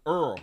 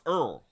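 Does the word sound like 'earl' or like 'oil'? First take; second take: earl; earl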